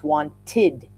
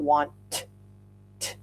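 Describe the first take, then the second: First: The word ends with an extra vowel syllable. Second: The word ends with a plain T sound. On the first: The speaker calls it right. "There's an extra vowel sound in there" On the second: The speaker calls it wrong. "It's not want t"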